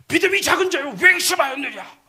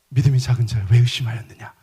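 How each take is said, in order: First: It sounds like a harsh, scolding rebuke. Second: It sounds warm, gentle and encouraging.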